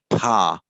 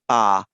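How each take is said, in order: First: The p is released with a strong puff of air. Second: The p is released without a puff of air. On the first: The speaker calls it wrong. "They tend to say pa" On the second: The speaker calls it right. "a native English speaker will find it a bit difficult to say pa"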